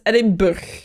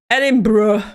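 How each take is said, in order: First: The name is read with Dutch pronunciation. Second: The name is read with English pronunciation. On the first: "in Dutch we would read it as Edinburgh" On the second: "I heard it in English"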